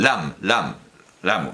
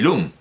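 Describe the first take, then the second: First: The name is said with an a vowel. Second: The name is said with a u vowel. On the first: The speaker calls it right. "la idea es que el nombre es Lam" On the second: The speaker calls it wrong. "no debo leerlo como se escribe"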